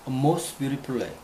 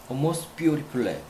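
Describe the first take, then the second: First: The stress falls on the word most. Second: The stress falls on the word beautiful. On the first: It expresses the highest degree, most. "most의 강세였고" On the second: It means very beautiful. "매우는 beautiful의 강세였다"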